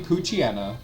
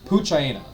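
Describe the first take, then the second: First: The ending sounds like the word 'hyena'. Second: The ending sounds like the word 'China'. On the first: The speaker calls it right. "I think it's supposed to be Poochyena. That's how I've always pronounced it" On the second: The speaker calls it wrong. "that looks more like Poochina"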